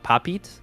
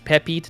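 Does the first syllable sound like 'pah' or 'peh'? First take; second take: pah; peh. First: The first syllable sounds like 'pah'. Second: The first syllable sounds like 'peh'. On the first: The speaker calls it wrong. "not Papite" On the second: The speaker calls it right. "It's Pepite"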